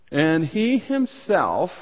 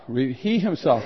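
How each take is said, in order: First: "he himself" slowed, with "he" lifted high; emphatic he himself. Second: Said in the usual way. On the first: Shown as a demonstration. Pastor stressing the Greek to his congregation, "he himself" lifted. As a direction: lean hard on "he himself". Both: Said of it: "in the Greek, that's a strong way".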